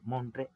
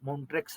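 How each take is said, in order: First: The word ends on a vowel, no 'ks'. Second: The word ends with a 'ks' sound. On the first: The speaker calls it right. "ಅದು ಮೌಂಟ್ರೆ ಉಚ್ಚಾರಣೆ" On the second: The speaker calls it wrong. "ಮೌಂಟ್ರೆಕ್ಸ್ ಅಲ್ಲ"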